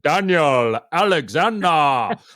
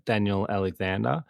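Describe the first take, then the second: First: The name is said grandly and dramatically. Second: The name is said flatly and plainly. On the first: It is a powerful name. "was he giving it a bit of" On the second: It is just an ordinary name. "Did he just go"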